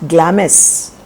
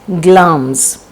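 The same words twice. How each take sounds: First: The word is said as it is spelled. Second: The word is said unlike its spelling. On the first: The speaker calls it wrong. "G L A M I S is not Glamis" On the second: The speaker calls it right. "It is pronounced as Glamis"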